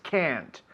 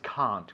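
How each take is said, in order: First: It is said with an American English accent. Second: It is said with a British English accent. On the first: "With an American accent, it's slightly different" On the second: "with an English accent"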